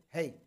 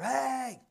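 First: "hey" called at a moderate volume; medium-volume call. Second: High, drawn-out yelled "hey"; loud yell. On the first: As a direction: call out just enough to be heard. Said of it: "at a more medium kind of volume". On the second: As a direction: yell it out to someone far off. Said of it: "somebody being very loud". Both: Shown as a demonstration.

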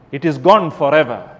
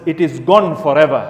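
Both takes have the same delivery.

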